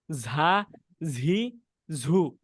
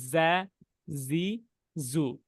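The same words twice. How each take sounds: First: "ঝা, ঝি, ঝু" as z with a strong puff of air; mistaken forceful breath. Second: "যা, জি, জু" as a z with only light air; neither hard nor soft. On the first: Teacher showing childhood mistake, "ঝা, ঝি, ঝু" over-aspirated. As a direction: push air hard through "ঝা, ঝি, ঝু". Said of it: "জোরে বাতাসগুলো বের করতাম". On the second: Teacher showing correct za, "যা, জি, জু" with balanced, light breath. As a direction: hold "যা, জি, জু" midway, buzzed, not puffed. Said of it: "মধ্যবর্তী অবস্থানে থাকবে". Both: Shown as a demonstration.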